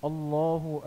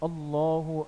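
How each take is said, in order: No difference in how they are said.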